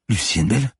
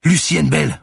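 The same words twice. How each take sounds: First: Higher voice rising at the end; confused, slowly recognising; bewildered question. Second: High, loud yell of a name; screamed, urgent self-identification; insistent shout. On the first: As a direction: repeat the name as a puzzled question. Manon comes back to herself, questioning. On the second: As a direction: shout your name to get through to her. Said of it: "reprit-elle". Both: A narrator's reading.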